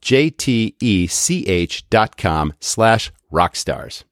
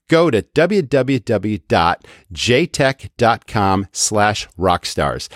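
First: "J T E C H" spelled letter by letter, slowly; spelling it out. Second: Each part of the URL said slowly and clearly; slow, deliberate web address; slow URL read. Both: Shown as a demonstration. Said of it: "That's spelled".

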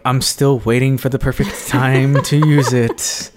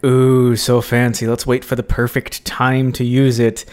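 First: Comic self-mockery, stressing "time"; hammed-up punchline with a big push on "time"; mock long-suffering waiting. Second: Lightly acted awe at a treasure; mock delight. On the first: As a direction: play someone still waiting years on. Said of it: "three years later, you're like". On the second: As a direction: coo over it with eager anticipation. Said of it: "you're like".

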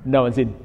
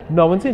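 First: Said in the usual way. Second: Incredulous repeat. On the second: Retold or imitated. Storyteller echoing the bad news at the farmhouse, incredulous. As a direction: repeat it as a disbelieving question.

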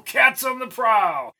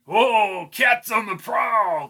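First: High, slow shouted cackle; hyena shout. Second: High, slow cackling leer; snarling with hyena giggles. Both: Acted. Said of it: "said Albie with a hyena laugh".

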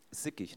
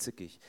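First: "sickig" starting on a plain s sound; SICKIG with initial s. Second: "zickig" starting on a sharp ts sound; ZICKIG with initial ts. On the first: Preacher clarifying his word, "sickig" with an s sound. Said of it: "sickig, nicht zickig". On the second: Preacher ruling out a word, "zickig" with a ts sound. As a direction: say "zickig" with German z as ts. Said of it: "nicht zickig". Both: Shown as a demonstration.

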